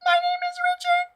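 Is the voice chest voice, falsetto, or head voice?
falsetto. It is spoken in a thin, high falsetto. "Falsetto is literally false"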